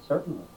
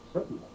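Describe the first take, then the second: First: It is said in the speaker's normal voice. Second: It is said in a put-on, altered voice.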